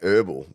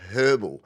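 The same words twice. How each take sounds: First: It is said a non-Australian way. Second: It is said the Australian way.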